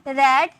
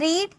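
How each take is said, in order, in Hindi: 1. इसमें छोटा स्वर है, 'red' जैसा। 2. इसमें लंबा स्वर है, 'reed' जैसा। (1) "इसकी प्रोनाउंसिएशन की जाती है रेड" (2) "फर्स्ट फॉर्म हमारा होता है रीड"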